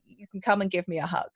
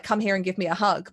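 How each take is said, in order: First: Gentle, no-pressure invitation; mildly tender big-sister reassurance; offer of comfort. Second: Mildly insistent order for a hug; a touch of bossy big sister; forcible demand. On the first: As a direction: offer the hug kindly, leaving it open. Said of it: "in an offer of comfort". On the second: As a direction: press the invitation as a command. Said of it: "forcibly, like". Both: Acted.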